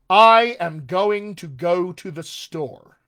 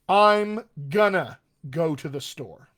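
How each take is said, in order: First: Every word is pronounced fully and carefully. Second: Words are contracted and moderately reduced together. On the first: "Here is some formal speech" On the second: "A little more towards informal"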